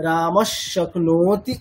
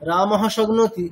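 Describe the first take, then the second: First: রামশ শক্নোতি slowly, visarga turned into sh; slow careful রামশ শক্নোতি, joined; correct sandhi pronunciation. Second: রামহ শগ্নোতি run together without sandhi; wrong pronunciation. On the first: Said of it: "তখন উচ্চারণটা কেমন হবে?". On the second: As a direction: say রামহ শগ্নোতি in one breath, unjoined. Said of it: "এটি কিন্তু ভুল উচ্চারণ". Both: Shown as a demonstration.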